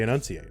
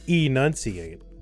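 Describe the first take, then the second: First: The first vowel is a quick, reduced schwa. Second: The first vowel is a full, clear vowel.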